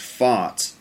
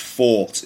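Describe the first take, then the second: First: The vowel is an open 'ah' with an American 'r' colouring. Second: The vowel is a long rounded British 'aw' with no 'r'. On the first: "In American English, I think it's fart" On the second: "But in English, it's fought"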